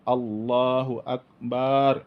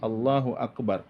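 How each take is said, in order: First: The last syllable of Akbar is drawn out long. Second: No vowel is drawn out beyond normal length. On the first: The speaker calls it wrong. "tidak boleh dipanjangkan banyak" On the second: The speaker calls it right. "tapi Allahu Akbar"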